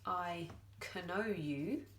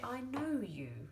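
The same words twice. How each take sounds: First: The K sound in know is pronounced. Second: The K sound in know is silent. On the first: The speaker calls it wrong. "we don't say I know you" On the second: The speaker calls it right. "we say I know you"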